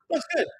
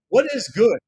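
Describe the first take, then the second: First: The words what is are contracted to what's. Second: The words what is are said in full. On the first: It sounds casual and everyday. The speaker calls it right. "We will say simply" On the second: It sounds formal. The speaker calls it wrong. "That's formal English"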